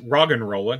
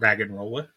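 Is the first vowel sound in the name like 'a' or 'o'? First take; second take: o; a. First: The first vowel is an 'o' sound. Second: The first vowel is an 'a' sound. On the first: The speaker calls it right. "It's an O" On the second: The speaker calls it wrong. "not an A"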